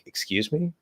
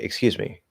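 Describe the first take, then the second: First: It is said with an offended intonation. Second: It is said with a plain, neutral intonation. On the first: The listener was offended by something said. "that sounds like you're offended" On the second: The listener did not catch what was said. "if you just say"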